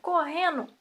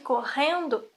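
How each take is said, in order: First: The d sound in the ending is dropped. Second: The d sound in the ending is pronounced. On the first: It reflects a regional way of speaking. "o D dos gerúndios não soa. Dizem então" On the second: It is the standard form. "em vez de"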